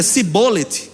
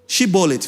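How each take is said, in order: First: The word begins with a hissing s sound. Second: The word begins with a hushing sh sound. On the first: The speaker calls it wrong. "de cobra, o som da cobra" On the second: The speaker calls it right. "o Shibolet é S H"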